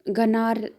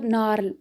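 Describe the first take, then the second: First: The initial g sound is pronounced. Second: The initial g sound is silent. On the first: The speaker calls it wrong. "गनार आएगा ना आपको" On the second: The speaker calls it right. "लेकिन इसको नार पढ़ते हैं"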